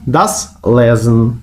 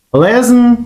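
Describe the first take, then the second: First: «das» подовжено й виділено, повільно; stress on das. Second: Said in the usual way. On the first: Shown as a demonstration. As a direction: das Lesen, повільно з наголосом на das. (повільно, з наголосом на «das»)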